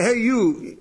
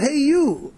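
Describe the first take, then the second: First: A curt "Hey, you" tossed at someone; brusque call. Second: Said in the usual way. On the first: Retold or imitated. Speaker calling a stranger without his name, brusque. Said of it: "when you say". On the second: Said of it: "he's not called".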